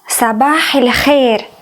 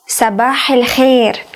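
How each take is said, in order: First: The linking vowel before Khair sounds like a. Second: The linking vowel before Khair sounds like a.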